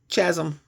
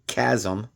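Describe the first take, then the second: First: The word begins with a ch sound. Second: The word begins with a k sound. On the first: The speaker calls it wrong. "I pronounced that incorrectly" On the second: The speaker calls it right. "Just like chaos is spelled C H"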